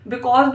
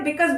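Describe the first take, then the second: First: Put-on because said the older way, bi-KOZ with a round open o; old school pronunciation. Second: Because said the newer way, bi-KUZ with a short neutral vowel; newer pronunciation. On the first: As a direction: say because as bi-kawz like school days. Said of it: "पिछले ही because बोलना भी ठीक है". (because को पुराने तरीके से, बि-कॉज़ बोलिए) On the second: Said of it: "because बोलना भी ठीक है". (because को नए तरीके से, बि-कज़ बोलिए) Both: Shown as a demonstration.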